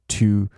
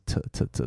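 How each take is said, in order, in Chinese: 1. 这个元音是完整的，发音清楚。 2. 这个元音又弱又轻，是弱化的。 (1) "通常他不会完全念成to" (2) "大家口语的时候会念起来有点像是to 的感觉"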